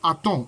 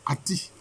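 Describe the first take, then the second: First: The name ends with a nasal 'on' sound. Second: The name ends with an 'ee' sound. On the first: The speaker calls it wrong. "souvent, il est dit de Aton" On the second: The speaker calls it right. "la bonne prononciation, c'est Ati"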